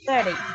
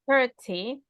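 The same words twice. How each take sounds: First: It is said in an American accent. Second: It is said in a British accent. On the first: "American English is only thirty" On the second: "In British English, it's just thirty"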